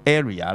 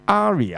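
First: The first vowel is an 'ay' sound. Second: The first vowel is not an 'ay' sound. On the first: The speaker calls it wrong. "咁就錯啦" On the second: The speaker calls it right. "就唔係讀A 音"

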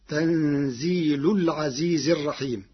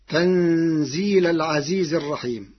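First: The first word ends with a u vowel. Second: The first word ends with an a vowel.

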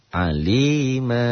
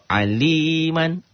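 First: The word ends with a long a vowel. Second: The word ends with an n sound. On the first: The reading stops on this word. "jika dihentikan dibaca satu" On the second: The reading does not stop here. "Tapi kalau aliman"

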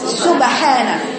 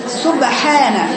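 No difference in how they are said.

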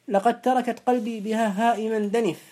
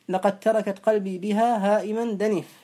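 The two takes are said the same way.

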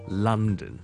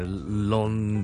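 First: The first syllable sounds like the 'lun' in 'lunch'. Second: The first syllable sounds like Cantonese 伦. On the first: The speaker calls it right. "同我哋读午餐lunch 嗰个lun 咧系一模一样嘅lun，so London" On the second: The speaker calls it wrong. "受到我哋中文嗰个字伦敦个伦咧，就影响到咧，就好多人就读成London"

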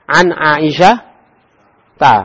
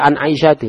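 First: The name ends with an a vowel. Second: The name ends with an i vowel. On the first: The speaker calls it right. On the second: The speaker calls it wrong. "Tidak boleh an Aisyah ti"

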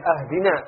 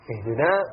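First: The first vowel is a. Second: The first vowel is i. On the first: Give a gift. The speaker calls it wrong. "memfathahkan hamzah" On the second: Give guidance. The speaker calls it right. "Kalau ihdina berikan hidayah"

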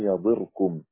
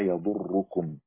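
First: The verb has i and a single r. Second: The verb has u and a doubled r. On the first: Their plot will not affect you. "وهذا من ضار يضير أو يضير" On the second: No harm from their plot will reach you. "هذا من ضر يضر"

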